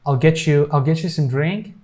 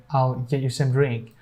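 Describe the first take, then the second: First: "get you" joined as "getchu"; cha sound. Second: "get you" with the T unreleased, no ch; silent T. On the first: Teacher showing what some people say for "get you", cha sound. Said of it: "a cha sound". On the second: Teacher showing what other people say for "get you", silent T. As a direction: stop the T of "get" before a clean "you". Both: Shown as a demonstration.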